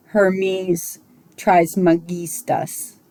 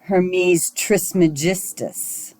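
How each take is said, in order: First: Trismegistus with a hard G, as in "get"; Hermes Trismegistus, g hard as in "give"; hard G pronunciation. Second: Trismegistus with a soft G, as in "gem"; Hermes Trismegistus, g soft like a j; popular soft G pronunciation. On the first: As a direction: say Trismegistus slowly, "-GHEE-stus" with a hard G. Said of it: "that's how I was taught to pronounce it". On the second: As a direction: say Trismegistus slowly, "-JIS-tus" with a j sound. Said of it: "the popular pronunciation is". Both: Shown as a demonstration.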